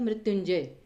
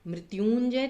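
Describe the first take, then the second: First: The vowel after y is short. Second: The vowel after y is long. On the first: The speaker calls it right. "तो बोला कैसे जाता है मृत्युंजय" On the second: The speaker calls it wrong. "मृत्युंजय तो नहीं बोला जाता ना"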